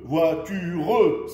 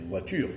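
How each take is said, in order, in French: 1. Le e final se prononce clairement. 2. Le e final est muet. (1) "j'insiste sur le mot, sur le son E" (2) "Mais en réalité, je devrais dire voiture"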